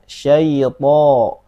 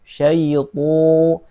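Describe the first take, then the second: First: The heavy t has an open o-like vowel. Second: The lips round, making the vowel sound like u. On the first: The speaker calls it right. "Tapi syaito" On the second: The speaker calls it wrong. "Jangan sampai dimonyongkan menjadi syaitu"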